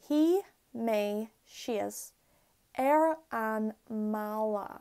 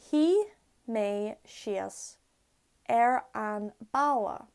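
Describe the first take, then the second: First: The last word begins with an M sound. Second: The last word begins with a B sound. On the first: "Now I'm going to say it with eclipsis" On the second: "Here's the sentence in Irish without eclipsis"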